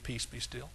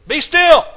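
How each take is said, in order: First: It is said quietly and softly. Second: It is said loudly, as a holler.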